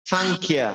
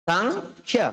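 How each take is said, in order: First: Said in the usual way. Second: সাংখ্যা with a hard push on the aspirated খ; সাংখ্যা, the ক cluster pressed and aspirated; stressed aspirated kh. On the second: Shown as a demonstration. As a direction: lean on the breathy kh in সাংখ্যা, pitch up. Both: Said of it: "ক এর মধ্যে একটা চাপ দিতে হবে".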